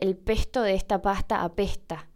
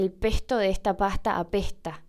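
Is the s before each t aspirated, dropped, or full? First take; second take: aspirated; aspirated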